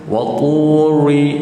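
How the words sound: The r is soft like an English r. The speaker calls it wrong. "kita memasukkan slang ataupun bunyi English"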